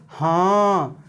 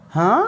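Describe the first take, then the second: First: "हाँ" stretched long, low and falling; drawn-out falling intonation. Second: "हाँ" rising sharply like a question; rising intonation. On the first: Teacher showing students pitch changes meaning, long falling "हाँ". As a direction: let "हाँ" sink slowly. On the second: Teacher showing students pitch changes meaning, questioning "हाँ". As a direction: start "हाँ" low and swing it up. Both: Shown as a demonstration. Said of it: "उतार चढ़ाव होता है".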